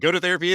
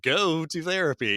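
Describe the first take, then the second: First: The word 'go' carries no special stress. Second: The word 'go' carries strong stress.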